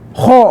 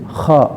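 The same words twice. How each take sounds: First: The vowel after kh is too rounded. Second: The vowel after kh is not rounded. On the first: The speaker calls it wrong. "jangan juga terlalu bulat ... nggak boleh kha" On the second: The speaker calls it right. "harus kha"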